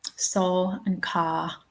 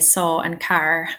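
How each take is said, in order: First: The R in car is dropped, British style. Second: The R in car is clearly pronounced.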